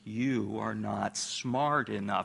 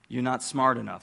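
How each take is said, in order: First: The sentence is spoken slowly and deliberately. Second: The sentence is spoken at a normal pace.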